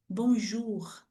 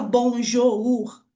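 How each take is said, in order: First: "bonjour" said softly and smoothly in French, with a French r; correct French. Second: "bonjour" read letter by letter with a rough r at the end; wrong pronunciation. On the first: Teacher to students showing the right French way, soft. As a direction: glide through "bonjour" like a native. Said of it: "a gente fala direto". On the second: Teacher to students showing the wrong way, mock-wrong. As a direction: spell out "bonjour" the wrong, Brazilian way. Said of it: "a gente não fala". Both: Shown as a demonstration.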